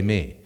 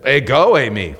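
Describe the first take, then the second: First: Said in the usual way. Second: "Hey, go, Amy." with a loud punch on go; emphatic answer. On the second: Shown as a demonstration. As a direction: declare "go" loudly, then "Amy" settles back. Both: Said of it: "That's a stronger statement".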